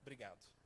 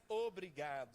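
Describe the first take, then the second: First: It is clipped, in a Mineiro accent. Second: It is said fully, in a standard accent.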